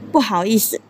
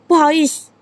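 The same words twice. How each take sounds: First: It is said clearly at a normal speed. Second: It is said quickly with the sounds blurred.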